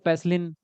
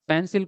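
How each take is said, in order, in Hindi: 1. यह शब्द n की ध्वनि से खत्म होता है। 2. यह शब्द l की ध्वनि से खत्म होता है।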